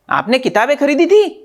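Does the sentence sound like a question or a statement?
question. It is said with emphasis as a question. It asks whether the books were bought. "शब्दों पर जोर देके हम प्रश्न पूछते हैं"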